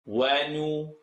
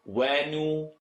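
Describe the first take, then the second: Both takes have the same delivery.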